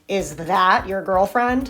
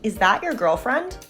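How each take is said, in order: First: It sounds openly hostile and blunt. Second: It sounds innocent with slight distaste.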